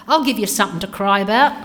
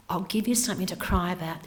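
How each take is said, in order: First: Loud, fast scolding snap; mum's scolding. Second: Said in the usual way. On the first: Retold or imitated. Mum scolding her crying child, loud and fast. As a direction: bark it like a cross mum. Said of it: "Mum used to say". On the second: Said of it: "that's what I did as an adult".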